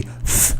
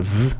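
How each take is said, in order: First: "th" as an isolated voiceless hiss of breath; "th" as in think, sounded on its own; unvoiced th sound. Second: "th" as an isolated voiced buzz; "th" as in this, sounded on its own. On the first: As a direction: hold "th" alone, with no voice in it. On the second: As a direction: hold "th" alone with the voice humming through it. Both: Shown as a demonstration. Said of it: "the T H sound".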